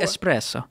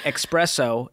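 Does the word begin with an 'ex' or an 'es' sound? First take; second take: es; ex. First: The word begins with an 'es' sound. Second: The word begins with an 'ex' sound. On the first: The speaker calls it right. "It's espresso" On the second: The speaker calls it wrong. "It's not express"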